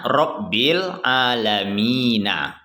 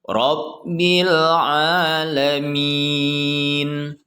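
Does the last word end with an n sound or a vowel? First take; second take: vowel; n sound. First: The last word ends with a short vowel. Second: The last word ends on a bare n sound. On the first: The reciter keeps reading without stopping. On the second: The reciter stops at this word. "karena kita wakaf atau berhenti ... disukunkan"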